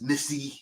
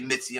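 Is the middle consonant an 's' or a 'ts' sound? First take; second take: s; ts. First: The middle consonant is a plain s sound. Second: The middle consonant is a ts sound. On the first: This is the name's actual form. "I know her name is Missy" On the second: This is how the speaker's local accent renders it. "as I say Mitzi, I'm from Queens, the way I say it"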